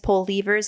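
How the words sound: The word is said with a Canadian pronunciation. "Canadians pull levers"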